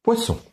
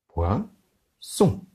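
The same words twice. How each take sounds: First: Said in the usual way. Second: Poisson, slow, pois and son apart; split into syllables. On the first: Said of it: "Je lève deux doigts". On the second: Shown as a demonstration. Teacher to class, Poisson split into syllables. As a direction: count out Poisson in two beats. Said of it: "Deux syllabes pour poisson".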